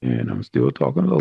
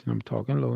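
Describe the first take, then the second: First: Same low voice, mouth right at the mic; close-miked low voice. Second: "talking low" said softly, far from the mic; unamplified low voice. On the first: Teacher repeats "I'm still talking low" now close on the mic, clear. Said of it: "now you can hear me a lot better". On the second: Teacher speaks "I'm talking low" quietly with no mic. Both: Shown as a demonstration.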